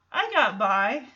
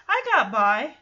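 The two takes are said the same way.

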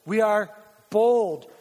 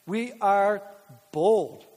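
First: "We are bold" repeated with "bold" pushed louder; louder emphatic. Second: Said in the usual way. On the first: Shown as a demonstration. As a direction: hit "bold" hard the second time. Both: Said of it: "core value proclaimed".

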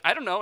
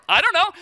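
First: Said in the usual way. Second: High, loud retort with a laugh; excited cluelessness. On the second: Retold or imitated. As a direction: blurt it out, acting clueless. Acts excited answer to wife.

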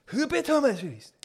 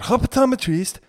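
First: Very high, slow, hammed-up Chinese accent; mock Chinese accent. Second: Loud hammed-up Chinese accent; mock Chinese accent. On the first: Comedian repeating his own bit, exaggerated Chinese accent. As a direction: squeal "Optometrist" in a drawn-out caricature Chinese accent. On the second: Comedian quoting his own bit, mock Chinese accent. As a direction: caricature Chinese accent on "optometrist". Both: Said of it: "me saying it like that".

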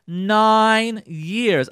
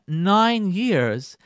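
First: NINE hit hard and louder, slow fall; emphatic stress on NINE. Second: Said in the usual way. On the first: Shown as a demonstration. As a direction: land on "Nine" like a fact that shocks. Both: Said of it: "I have to say this again".

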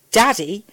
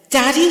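First: Said in the usual way. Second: Put-on higher, louder girl's questioning cry; high-pitched child's cry of recognition. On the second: A narrator's reading. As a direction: call out to father as a little girl, rising. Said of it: "she cried".

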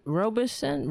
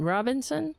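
First: "Robinson" with a long O, like "robe"; ROH-buh-sun for "Robinson", ending down; first pronunciation attempt. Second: "Robinson" with short O, like "rob"; ROB-in-sun for "Robinson", questioning rise at the end; corrected pronunciation attempt. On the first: Trying out pronunciations of a name. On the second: Second try at the name. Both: Real, not acted.

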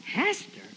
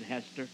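First: High-pitched questioning echo; incredulous echo. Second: Low, soft, resigned-sounding naming; subdued answer. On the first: Young preacher asks fisherman about his wife, incredulous echo. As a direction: shoot up high in mock disbelief. Preacher echoes name in disbelief. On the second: Battered husband admits who hit him, subdued answer. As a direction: give the name quietly and low. Beaten husband names his wife. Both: Retold or imitated.

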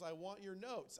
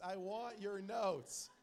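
First: Raised, louder emphatic demand. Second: Loud, drawn-out mock demand; shouted demand. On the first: Acted. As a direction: demand it with some force, at normal speed. Playful demand, first take. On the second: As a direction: boom it out slowly, stretching every word. Same demand escalated, drawn out.

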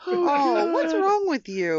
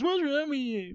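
First: High, loud, drawn-out protest; appalled groan. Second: High-pitched mocking echo of a complaint; mimicked scolding. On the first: Real, not acted. Co-host scolds the joker over tasteless joke, appalled. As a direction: wail it in disgusted disbelief. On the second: Host mimics co-host scolding him, high mocking whine. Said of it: "I come in at the end and it's".

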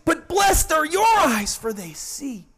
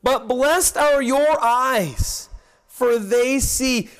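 First: High-pitched burst of excitement, dropping at the end; excited scripture quote, pitched up high; excited Jesus. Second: Said in the usual way. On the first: Acted. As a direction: exclaim it with joyful excitement, imitating Christ. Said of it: "hear the excitement in His voice". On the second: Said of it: "Look at verses sixteen and verse seventeen".

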